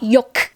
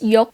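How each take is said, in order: First: The name ends with an audible K sound. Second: The name ends without an audible K sound. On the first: The speaker calls it wrong. "it's not Yok" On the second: The speaker calls it right. "we don't pronounce that K at all"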